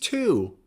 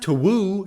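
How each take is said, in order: First: No w sound is heard in the word. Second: A w sound is heard in the word. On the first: The speaker calls it right. "it's to" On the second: The speaker calls it wrong. "It's not to woo"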